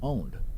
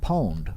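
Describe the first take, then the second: First: The word begins with a vowel sound. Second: The word begins with a p sound. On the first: The speaker calls it right. "It's owned" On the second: The speaker calls it wrong. "if you say pwned, it's not right"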